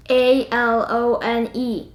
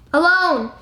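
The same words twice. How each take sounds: First: A L O N E spelled letter by letter, slowly. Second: Alone! burst out as an exclamation; Alone! called out after spelling it; exclaimed. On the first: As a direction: spell out A L O N E one letter at a time. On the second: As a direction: cry out Alone! with emphasis. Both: Shown as a demonstration.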